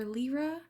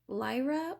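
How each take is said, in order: First: "Lyra" said LEE-ruh; first syllable of "Lyra" rhymes with "see"; alternative pronunciation. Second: "Lyra" said LYE-ruh; first syllable of "Lyra" rhymes with "eye"; alternative pronunciation. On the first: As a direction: say "Lyra" with an EE vowel, like "leer". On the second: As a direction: say "Lyra" with a long I, like "lie". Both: Shown as a demonstration. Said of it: "I'm not sure how to say that one".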